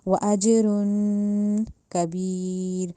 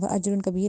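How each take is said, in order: First: The phrase is said slowly and carefully. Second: The phrase is said quickly and rushed. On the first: The speaker calls it right. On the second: The speaker calls it wrong.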